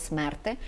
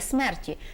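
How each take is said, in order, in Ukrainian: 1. Слово закінчується на нестягнений голосний 'ih'. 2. Слово закінчується на чіткий голосний 'ee'. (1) "вимовляли нема кого чого смерти" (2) "а не вимовляли смерті"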